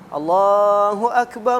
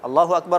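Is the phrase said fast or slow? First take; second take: slow; fast. First: The phrase is said slowly. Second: The phrase is said quickly. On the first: It is the call to prayer, done as recommended. "azan itu pelan-pelan gitu" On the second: It is the iqamah, not the call to prayer.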